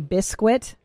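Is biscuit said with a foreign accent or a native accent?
foreign. The word has a foreign-accented pronunciation. A non-native parent says it this way. The speaker calls it wrong. "he would say biscuit"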